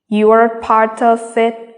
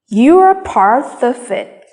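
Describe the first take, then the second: First: All words are said evenly, without stress. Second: Some words are said with clear stress.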